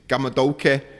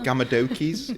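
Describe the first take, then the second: First: It is said in a Mancunian accent. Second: It is said in a middle-class English accent.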